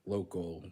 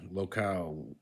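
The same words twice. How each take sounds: First: Said in the usual way. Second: "Local" as lo-CAL; full "al" closing "Local"; Spanish ending. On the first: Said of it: "words that end in al". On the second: Shown as a demonstration. Learner reading the Spanish word, "Local" with full "al". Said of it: "stressed at the last syllable".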